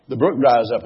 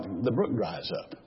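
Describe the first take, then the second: First: Said in the usual way. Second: Much softer, low and slow; quiet. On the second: Real, not acted. Preacher telling the congregation hard times end, hushed. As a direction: let it drop, hushed and slow. Sermon point said softly.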